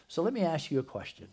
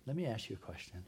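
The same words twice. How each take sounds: First: Asking out. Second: Quiet repeat. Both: Real, not acted. Preacher repeats question to congregation.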